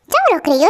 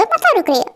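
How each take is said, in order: First: Said in the usual way. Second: मतलब said higher, settling the matter; insistent repeat. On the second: Acted. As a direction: repeat it as final, मतलब lifted. (मतलब पर ज़ोर देकर अंतिम फ़ैसला)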